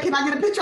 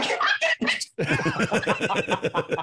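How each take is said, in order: First: Said in the usual way. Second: Squeaky starstruck echo. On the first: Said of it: "She's like". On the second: Retold or imitated. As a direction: shrink into a squeaky overwhelmed fan. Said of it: "I was like".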